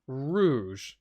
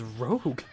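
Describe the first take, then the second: First: The name ends in a soft zh sound. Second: The name ends in a hard g sound. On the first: The speaker calls it right. "Is that how you pronounce it?" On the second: The speaker calls it wrong. "I always thought it was Rogue"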